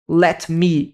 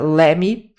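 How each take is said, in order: First: Both words are pronounced fully and separately. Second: The words are shortened and run together.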